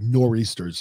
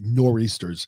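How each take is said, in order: First: The word is shortened, New England style. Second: The same.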